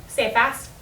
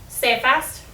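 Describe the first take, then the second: No difference in how they are said.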